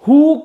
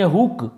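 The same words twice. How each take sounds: First: The vowel is long, as in food. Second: The vowel is short, as in book. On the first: The speaker calls it wrong. "हुक नहीं बोलेंगे" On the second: The speaker calls it right. "यानी इसको बोलेंगे हुक"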